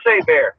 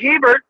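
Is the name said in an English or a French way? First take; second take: French; English. First: The name is said in a French way. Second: The name is said in an English way. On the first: This is how the name is actually said. The speaker calls it right. "but it's pronounced Hebert. Blame the Louisiana French for that one" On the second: This is how the spelling suggests it sounds. The speaker calls it wrong. "Looks like Hebert"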